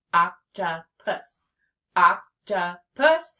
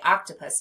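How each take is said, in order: First: "Octopus" slowly as oc, tuh, pus; three slow beats for "Octopus"; split into syllables. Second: Said in the usual way. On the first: Shown as a demonstration. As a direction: punch each syllable of "Octopus" separately. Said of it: "How many syllables?". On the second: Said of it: "Let's say octopus together".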